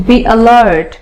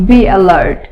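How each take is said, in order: Both takes have the same delivery.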